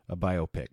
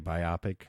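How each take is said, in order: First: The stress is on the first syllable. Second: The stress is on the second syllable. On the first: "I say it another way" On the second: "some people say biopic. That means with two eyes. Myopic means one eye"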